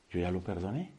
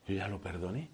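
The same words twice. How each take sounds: The two takes are said the same way.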